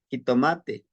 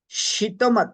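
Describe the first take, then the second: First: The word ends in an 'e' sound. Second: The word ends in a 'tl' sound. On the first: This is the Spanish form of the borrowed word. "dicen jitomate" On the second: This is the original Nahuatl form. "no podían pronunciar el T L, en vez de decir shitomat"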